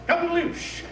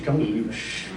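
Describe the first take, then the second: First: It is said in the tone of a greeting. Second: It is said in a flirtatious, urgent tone. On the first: The speaker is saying hello. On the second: The speaker is asking for a quick kiss. "Kiss me quick, the love is approaching the village"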